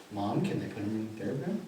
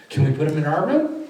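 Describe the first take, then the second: First: Much softer, lower, careful question; gentle request. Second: A hint of a child asking, lifted at the end; imitated hopeful request. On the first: Retold or imitated. Therapist checking with mom, hushed and gentle. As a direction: ask softly, as if checking with someone fragile. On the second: Children asking about the pictures, lightly voiced hope. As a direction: ask it brightly, lightly playing a child.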